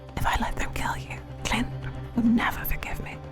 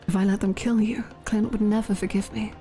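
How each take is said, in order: First: It is whispered quietly in a put-on voice. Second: It is spoken aloud in a put-on voice.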